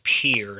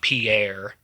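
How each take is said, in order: First: It sounds like the word pier. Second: It does not sound like pier. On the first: The speaker calls it right. "is pronounced Pierre ... Pier, like like a pier on the ocean" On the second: The speaker calls it wrong. "not Pierre"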